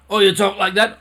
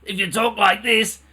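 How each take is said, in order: First: Louder, higher pressed voice; another strained voice. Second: Lightly strained, higher talking voice; strained voice demo. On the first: Teacher showing a second strained voice, lightly pressed. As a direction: push the voice out tight. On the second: Teacher demonstrating a strained speaking voice, lightly. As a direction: show a tight, pinched way of talking. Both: Shown as a demonstration.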